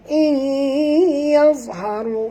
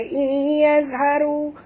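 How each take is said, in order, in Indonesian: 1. Huruf tengahnya bunyi dha tebal. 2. Huruf tengahnya bunyi za biasa. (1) "huruf dha tebal" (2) "jangan baca iyazharu ... maknanya huruf zai"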